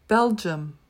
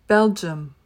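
The two takes are said the same way.

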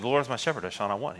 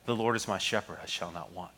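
First: The verse is read quickly, breezing through it. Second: The verse is read slowly, lingering on it. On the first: The familiar words are skimmed without reflection. The speaker calls it wrong. "the tendency is to just breeze through it" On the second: The words are dwelt on and allowed to sink in. The speaker calls it right. "to read it slowly"

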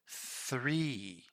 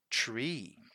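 First: The word starts with a 'th' sound. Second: The word starts with a plain 't' sound. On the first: The speaker calls it right. "you need to pronounce that TH" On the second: The speaker calls it wrong. "And that's not right in this case here"

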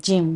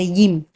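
First: The word starts with a J sound. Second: The word starts with a Y sound. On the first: "So we should just say gym" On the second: "which actually also gym, but with the Y instead"

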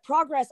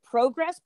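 First: It is pronounced the American way. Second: It is pronounced the British way. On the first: It is pronounced the way the speaker naturally says it. "pronouncing it as an American" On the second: It is pronounced the way the home fans expect. "am I going to have to pronounce it Progress? Because I know that to me, that's not how I would pronounce it"

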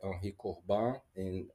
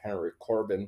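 First: The name is said in a non-American way. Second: The name is said with an American pronunciation.

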